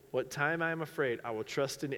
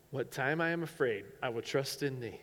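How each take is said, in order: Both takes have the same delivery.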